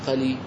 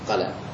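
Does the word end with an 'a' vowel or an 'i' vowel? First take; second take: i; a. First: The word ends with an 'i' vowel. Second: The word ends with an 'a' vowel. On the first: The speaker calls it wrong. "أسمع بعض الناس ينطقون بها قلي ولا أراها" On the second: The speaker calls it right. "فأولى لام ومفتوح أولى قلا"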